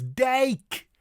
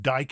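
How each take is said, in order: First: Higher dike with ei vowel, near "dake"; correct Dutch pronunciation. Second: Dike rhyming with English "bike"; English eye vowel in dike; common mispronunciation. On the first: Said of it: "it's dike". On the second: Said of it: "common mispronunciation". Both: Shown as a demonstration.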